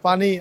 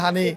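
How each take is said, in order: First: The word begins with a p sound. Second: The word begins with an h sound.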